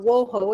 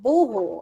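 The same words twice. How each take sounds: First: The name is said the American way. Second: The name is said the German way.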